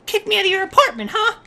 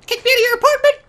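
First: Quick, contained indignant question; simmering indignation. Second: Louder, higher indignant question; mock outrage. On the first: Pretend. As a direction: start the confrontation without raising your voice. Confronting friend, first take. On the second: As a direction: raise your voice in outrage. Confronting friend, escalated repeat.

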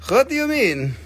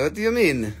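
First: Higher, louder what; host reacting to a chat comment; higher mock indignation. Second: Said in the usual way. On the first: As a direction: play offended at a comment.

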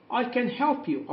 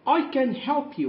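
First: Slow, higher I can help you, stress on help; slow teacher repeat; slow modelling. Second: Slow, higher I can help you; slow, bright teacher read; slow modelling. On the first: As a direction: repeat it slowly for the class. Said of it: "أستطيع أن أساعدك". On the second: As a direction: offer help slowly and clearly. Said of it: "هنا بتعرض عليها المساعدة". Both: Shown as a demonstration.

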